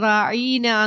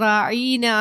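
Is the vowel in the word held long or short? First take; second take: long; long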